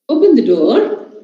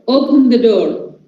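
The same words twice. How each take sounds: First: It is said in a polite, asking tone. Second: It is said in a firm, ordering tone. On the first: The listener is being asked politely. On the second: The listener is being ordered.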